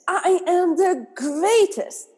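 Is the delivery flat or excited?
excited. It is said with joyous, excited feeling.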